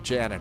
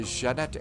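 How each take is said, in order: First: The name is said with an English pronunciation. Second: The name is said with a French pronunciation. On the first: "we, of course, call it Janet over here" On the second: "That's the fancy uh, French pronunciation"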